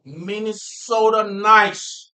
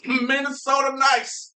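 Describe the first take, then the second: First: Put-on slow, drawn-out Minnesota accent. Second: High, slow, hammed-up Minnesota accent. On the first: Proud Minnesotan naming the local kindness, Minnesota accent. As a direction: stretch it loud and high in a Minnesota accent. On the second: Minnesotan repeating the local slogan, exaggerated Minnesota accent. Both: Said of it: "Minnesota accent".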